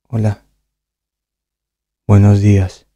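It sounds depressed and low.

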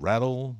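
It is said with an American pronunciation. "no inglês americano"

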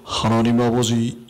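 It is said in a very deep voice.

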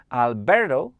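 The name is said with an American accent. "teraz wymawiłem to bardziej po amerykańsku"

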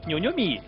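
It is said in a Shanghai accent. "上海。他说牛牛米"

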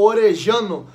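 The double L has the Argentine Spanish sound. "Que é como se pronuncia os dois L's lá em espanhol"

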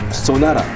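The last syllable has a soft, flapped r-like sound. This is how Americans say it. The speaker calls it right. "그건 주로 이제 라로 끝나네요"

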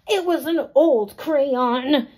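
It is said in a very grouchy voice. The speaker calls it right. "Maybe I should use crabbier and grouchier voices"

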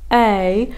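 The vowel starts with a light glottal click. The vocal cords close properly. The speaker calls it right. "that little very light click you hear at the start"

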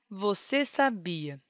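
It is said as a flat, finished statement. The speaker states a completed idea. "esta frase nos indica uma mensagem com a ideia concluída e, por isso, usamos o ponto final"

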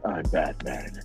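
The voice is pitched low and deep. "So I said"

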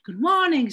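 It is said with a native English accent. "nih orang asing itu kan pakai good morning student"

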